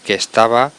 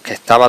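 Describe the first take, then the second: First: The words are said fully and separately. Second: The words are run together into one. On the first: It is the standard form. "en vez de decir" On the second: It marks a vulgar, nonstandard register. "decimos que estaba todo rápido"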